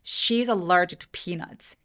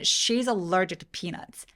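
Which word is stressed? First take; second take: she; she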